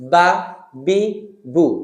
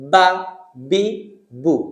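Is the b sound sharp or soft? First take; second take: sharp; sharp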